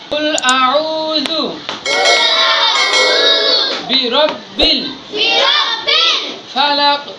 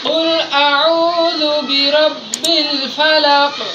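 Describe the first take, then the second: First: It is broken up into separate syllables. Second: It is said smoothly as one connected phrase. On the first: "কাটা কাটা বলতেছি" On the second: "আসলে বলতেছি"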